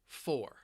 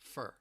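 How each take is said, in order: First: The word is stressed with a full vowel. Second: The word is unstressed with a reduced vowel. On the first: "When I stress it, it sounds like I'm saying the number four" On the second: "it may sound a little more like fur"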